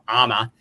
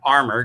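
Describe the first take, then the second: First: The R sound is dropped entirely. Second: The R sound is clearly pronounced. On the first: The speaker calls it right. "I should drop the R" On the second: The speaker calls it wrong. "with an American accent"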